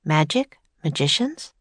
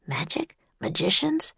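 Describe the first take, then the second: First: Said in the usual way. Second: Soft inner-voice questions; thinking aloud. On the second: Acted. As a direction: muse it to yourself quietly. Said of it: "Jack thought".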